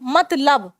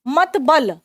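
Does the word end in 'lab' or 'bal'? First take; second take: lab; bal. First: The word ends with the syllable 'lab'. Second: The word ends with the syllable 'bal'.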